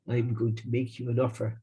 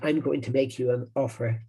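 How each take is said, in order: First: It is said in an Irish accent. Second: It is said in an Italian American accent. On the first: The speaker calls it wrong. "not an Irish accent" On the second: The speaker calls it right. "he would say it in an Italian American accent"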